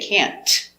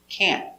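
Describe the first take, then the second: First: The final T is released with a hard burst. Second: The final T is stopped without any release. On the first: The speaker calls it wrong. "We don't pronounce the T hard" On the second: The speaker calls it right. "We make a stop T"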